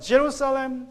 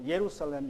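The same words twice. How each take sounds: First: Jerusalem is pronounced the usual English way. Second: Jerusalem is pronounced close to the Hebrew way.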